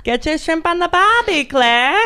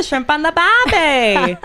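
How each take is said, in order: First: Higher, cheesy Australian, "barbie" stretched; terrible Australian accent. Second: Slow, cheesy Australian cliché, "barbie" drawn out; terrible Australian accent. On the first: Host teasing her co-host Claire in a terrible Australian accent. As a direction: sell the cliché in a bad Aussie voice. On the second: Host hamming up a cliché in a terrible Australian accent. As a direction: ham up the Australian tourist slogan. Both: Acted. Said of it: "terrible Australian accents".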